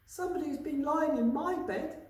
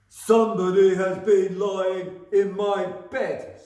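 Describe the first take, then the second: First: It is said in a medium-pitched voice. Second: It is said in a deep, gruff voice. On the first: "in her middle-sized voice" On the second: "in his great great big gruff voice"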